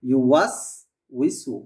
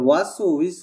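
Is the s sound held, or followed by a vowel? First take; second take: held; vowel added. First: The first s sound is held without a vowel. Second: A short vowel follows the first s sound. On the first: The speaker calls it right. "বাতাসটাকে সুন্দরভাবে ধরে রাখতে হবে" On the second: The speaker calls it wrong. "এরকম যেন না হয়, ওয়াসু হয়ে যাচ্ছে"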